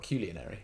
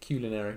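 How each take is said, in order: First: Culinary said as "KEW-lee-uh-nary"; culinary with the extra "ee" sound; mispronounced culinary. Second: Culinary said as "KUL-uh-nary"; culinary without the "ee" sound; correct pronunciation. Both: Shown as a demonstration. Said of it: "not culinary".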